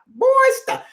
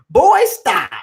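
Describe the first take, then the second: First: A lightly put-on big boy voice, pitched way up; boy stop with a hint of a big voice. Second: A lightly put-on big boy voice, a bit louder. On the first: To the chat room, a lightly done big boy voice. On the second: To the chat room, a lightly voiced big boy voice. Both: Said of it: "In my big boy voice".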